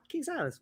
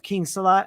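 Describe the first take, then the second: First: The name ends with an s sound. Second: The name ends without an s sound. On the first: The speaker calls it right. "Okay, perfect" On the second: The speaker calls it wrong. "I say it wrong"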